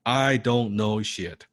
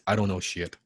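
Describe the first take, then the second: First: Slow, deliberate repetition for the group; slow mantra. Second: "I" weighted, falling close; mantra with stress on I. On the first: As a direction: drag each word out for them to echo. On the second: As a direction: state the mantra plainly. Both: Shown as a demonstration. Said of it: "Say it with me".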